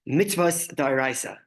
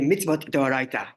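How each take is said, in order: First: It is said in Ashkenazic Hebrew pronunciation. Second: It is said in Sephardic Hebrew pronunciation.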